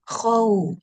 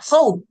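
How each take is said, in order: First: The syllable is said quickly and softly. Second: The syllable is said harshly and roughly. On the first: The speaker calls it right. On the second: The speaker calls it wrong.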